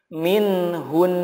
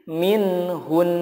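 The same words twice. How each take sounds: Both takes have the same delivery.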